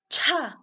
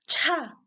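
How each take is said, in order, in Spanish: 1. La ch se libera con un fuerte soplo de aire. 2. La ch se libera con un fuerte soplo de aire.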